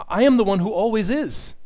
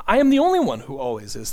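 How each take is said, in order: First: Am pushed high and loud, falling after; "am" stressed, the rest falling away. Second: Only leaned on, the rest steady; "only" carries the weight, not "am"; stress on only. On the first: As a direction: lean into am. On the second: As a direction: hit the word only. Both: Real, not acted.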